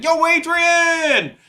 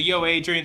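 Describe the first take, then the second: First: Slow, stretched, much higher and louder yell; high, loud, slow hammed-up movie shout; Rocky. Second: Said in the usual way. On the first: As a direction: drag it out like the boxing movie call. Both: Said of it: "you know, Rocky".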